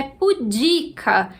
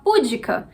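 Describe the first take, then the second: First: PUDICA as pu-DI-ca, long middle syllable; pudica stressed on DI. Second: PÚDICA with the punch on PÚ; púdica stressed on first syllable. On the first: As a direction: put the weight on the DI of pudica. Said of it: "a pronúncia é pudica". (pudica com a tônica no "di") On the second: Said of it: "dá vontade de falar púdica". (púdica com a tônica no "pú") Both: Shown as a demonstration.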